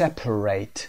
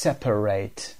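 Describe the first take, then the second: No difference in how they are said.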